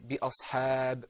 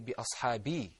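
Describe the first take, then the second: First: The word ends on a bare consonant. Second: The word ends with a short i vowel. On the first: The reciter stops at this word to breathe. The speaker calls it right. "I would say bi ashab. I would take my breath" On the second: The reciter carries on to the next word. The speaker calls it wrong. "I wouldn't say bi ashabi and then move on to the next word"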